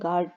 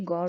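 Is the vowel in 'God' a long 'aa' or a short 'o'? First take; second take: long aa; short o. First: The vowel is a long open 'aa' sound. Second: The vowel is a short rounded 'o' sound. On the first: The speaker calls it wrong. "Pakistani अक्सर कहते हैं गार्ड, वो wrong होता है" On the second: The speaker calls it right. "ये गॉड होता है, वो का साउंड निकालते हैं हम इसमें"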